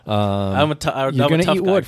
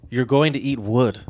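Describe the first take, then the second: First: It is said in a playful, flirtatious way. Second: It is said in a plain, unflirtatious way. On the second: "you didn't say it in a very flirty way"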